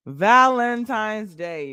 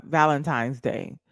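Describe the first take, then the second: First: Loud, high, slowly stretched VALENTINE'S DAY; drawn-out exclamation. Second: Said in the usual way. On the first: Real, not acted. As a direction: belt out Valentine's Day, dragging it out.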